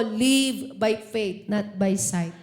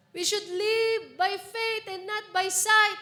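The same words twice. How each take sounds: First: Low, slow and deliberate, each word weighted; slow repeat-after-me. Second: Raised and slowed, leaning on sight; higher emphatic restatement. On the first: Preacher has the church repeat, slow and low. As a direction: say it slowly for the congregation to repeat. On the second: Preacher restates the verse to the church, raised and slow. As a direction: lift it up and land on sight. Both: Shown as a demonstration. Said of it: "Sabihin mo sa katabi mo".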